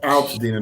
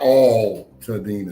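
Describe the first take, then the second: First: The first syllable sounds like 'al' in 'pal'. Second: The first syllable sounds like the word 'all'. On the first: The speaker calls it right. "Alt Altadena" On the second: The speaker calls it wrong. "not all Tadena"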